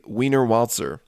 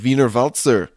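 First: The name is read literally with English pronunciation. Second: The name is said with a German-style pronunciation. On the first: "if I were to read it literally" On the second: "I think that's how you pronounce it"

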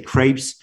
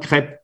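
First: The word ends with an audible s sound. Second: The word ends without any s sound. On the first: The speaker calls it wrong. "When you say crepes, you're making three mistakes" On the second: The speaker calls it right. "Even if you write with S, you don't pronounce it"

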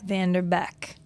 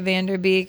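First: The last syllable has a short e vowel. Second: The last syllable has a long ee vowel. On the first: The speaker calls it right. "it's Perry Vanderbeck" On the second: The speaker calls it wrong. "I think I said Beek, too"

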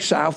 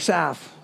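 First: The word is said in a standard accent. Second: The word is said in a local London accent. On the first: This is not how locals say it. "They don't say South" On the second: This is how locals say it. "they say South"

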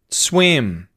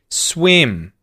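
First: The voice goes down on the word. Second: The same.

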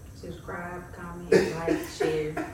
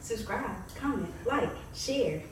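First: The words are said in a flat monotone. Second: The words are said with lively, varied pitch.

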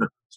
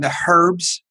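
First: It is said in an American way. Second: It is said in an English way.

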